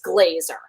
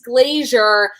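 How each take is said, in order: First: The name is said with two syllables. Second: The name is said with three syllables. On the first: The speaker calls it right. "it's Glazer" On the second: The speaker calls it wrong. "when someone brings you up to stage and they're like Liz Glazier"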